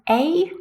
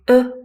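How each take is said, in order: First: It has a full 'ay' vowel. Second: It has a short, relaxed schwa vowel. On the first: "as the strong form" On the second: "just schwa sound"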